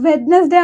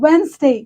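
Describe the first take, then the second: First: The first d is sounded. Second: The first d is silent. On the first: The speaker calls it wrong. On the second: The speaker calls it right.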